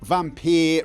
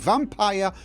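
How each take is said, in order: First: The ending rhymes with 'deer'. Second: The ending rhymes with 'tire'. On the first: The speaker calls it wrong. "Not vampire rhymes with deer" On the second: The speaker calls it right. "I say vampire rhymes with tire"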